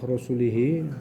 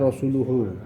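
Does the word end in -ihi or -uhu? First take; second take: ihi; uhu. First: The word ends with i vowels: -ihi. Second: The word ends with u vowels: -uhu. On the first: God disowns the polytheists and also the Messenger. The speaker calls it wrong. "kalau dibaca dengan kasrah rusulihi" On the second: God and His Messenger are both free of the polytheists. The speaker calls it right. "Jadi dibaca Rasuluhu"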